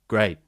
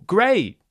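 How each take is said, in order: First: The pitch stays flat, with no emotion. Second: The pitch rises and then falls enthusiastically. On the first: The speaker seems busy, uncaring or sarcastic. The speaker calls it wrong. "there's no emotion with this reaction" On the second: The speaker is enthusiastic about the news. The speaker calls it right. "A rise, fall"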